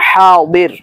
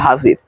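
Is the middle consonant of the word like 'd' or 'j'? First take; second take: d; j. First: The middle consonant sounds like a 'd'. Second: The middle consonant sounds like a 'j'. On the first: It is the Arabic pronunciation. "আর যদি আরবি উচ্চারণ করেন তাহলে হবে হাদির" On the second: It is the Bengali pronunciation. "যদি আপনি বাংলা ভাষায় উচ্চারণ করেন তাহলে হবে হাজির"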